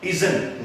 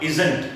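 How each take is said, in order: First: "isn't" as izn, t dropped; contracted isn't. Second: "isn't" as i-zant with a sounded t; wrong isn't. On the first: Teacher giving the right form, reduced isn't. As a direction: end "isn't" on the n. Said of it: "not isn't". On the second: Teacher showing what to avoid, full isn't. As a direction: give "isn't" a full second syllable and t. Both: Shown as a demonstration.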